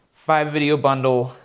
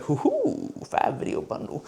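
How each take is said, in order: First: Said in the usual way. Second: Mock whisper. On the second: Gleeful reaction to the client's offer.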